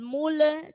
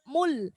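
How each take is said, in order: First: The final l bounces into an extra vowel. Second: The final l ends cleanly with no vowel. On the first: The speaker calls it wrong. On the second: The speaker calls it right.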